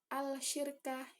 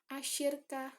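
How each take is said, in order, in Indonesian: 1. Bunyi l terdengar jelas sebelum sh. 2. Bunyi l menyatu menjadi bunyi sh yang ganda. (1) "bukan al-syirka, itu bukan" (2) "tapi asyirka"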